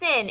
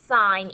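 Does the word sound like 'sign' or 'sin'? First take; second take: sin; sign. First: It is said with a short vowel, like 'sin'. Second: It is said with a long vowel, like 'sign'. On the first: The speaker calls it wrong. "Don't say sin" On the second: The speaker calls it right. "It is still sine"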